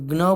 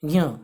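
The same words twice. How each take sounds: First: The syllable starts without a j sound. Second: The syllable starts with j blended into y. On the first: The speaker calls it wrong. "हम ज्ञ बोलते हैं पर वो बिल्कुल ही गलत है" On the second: The speaker calls it right. "ज ज रहेगा और य, इसे य की तरह बोला जाएगा"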